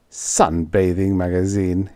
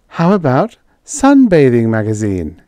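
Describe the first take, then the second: First: Gasped. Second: Higher, louder, perky suggestion. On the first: Roy stunned by Edith's sponsor idea, gasping. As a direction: repeat it slowly, as if taken aback. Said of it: "he gasped". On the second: Edith proposing a sponsor to Roy, suggesting it brightly. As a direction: float the idea with lifted pitch. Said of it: "she suggested". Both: A narrator's reading.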